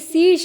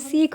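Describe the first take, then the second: First: The word ends with an 'sh' sound. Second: The word ends with a 'kh' sound. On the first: "लिखा तो स्पष्ट रूप से श ही है" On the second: "श को ख उच्चारित किया जाता है"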